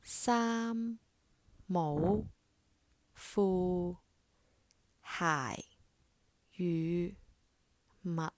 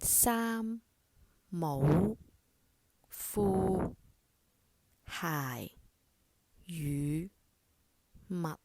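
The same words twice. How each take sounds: No difference in how they are said.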